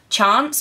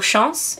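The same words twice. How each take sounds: First: The name is pronounced the English way. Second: The name is pronounced the French way.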